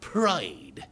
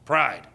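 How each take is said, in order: First: It is said in a British accent. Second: It is said in an American accent.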